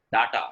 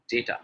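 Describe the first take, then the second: First: DATA with two "ah" vowels; wrong pronunciation. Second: DATA with "day" in the first syllable; correct pronunciation. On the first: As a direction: say DATA as "DAH-tah". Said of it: "a lot of people saying". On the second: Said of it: "The correct pronunciation is". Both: Shown as a demonstration.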